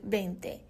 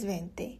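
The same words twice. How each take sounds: First: The word starts with a b sound. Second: The word starts with a v sound.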